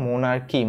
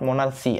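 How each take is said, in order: First: The middle consonant is a k sound. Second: The middle consonant is an s sound. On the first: The speaker calls it right. "এটার উচ্চারণ কি হবে ভাই? মোনার্কি" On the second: The speaker calls it wrong. "Not মোনার্সি"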